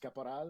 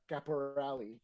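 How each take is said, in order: First: The name is said with French pronunciation. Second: The name is said with English pronunciation. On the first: "the francophone way" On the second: "They pronounce the E for whatever reason"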